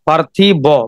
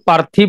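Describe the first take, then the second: First: The word ends with an added o vowel. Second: The word ends on a bare b consonant. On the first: A hidden vowel suffix is present. "বটাকে উচ্চারণ করেন, ... বয়ের পরে এসে গেল অ" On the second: The word carries no suffix. "ব থামিয়ে গেলেন আপনি"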